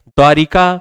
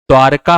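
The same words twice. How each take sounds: First: द्वारिका in three beats, with an added i; wrong pronunciation. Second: द्वारका with no i after r, "dvaar-kaa"; correct pronunciation. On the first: Teacher reading the faulty द्वारिका, mispronounced with extra i. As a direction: say "dvaa-ri-kaa" for द्वारिका. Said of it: "अशुद्ध है". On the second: Teacher giving students the right द्वारका, correctly pronounced. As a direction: run r straight into k in द्वारका. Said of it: "द्वारका होता है". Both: Shown as a demonstration.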